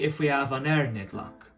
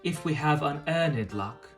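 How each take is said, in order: First: The R in unearned is clearly pronounced. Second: The R in unearned is not pronounced. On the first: "in O P we would pronounce the R in unearned" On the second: "in received pronunciation one might say"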